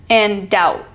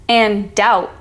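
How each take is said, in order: The two takes are said the same way.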